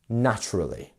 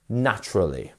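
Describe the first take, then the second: First: The stress is on the first syllable. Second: The stress is on the first syllable.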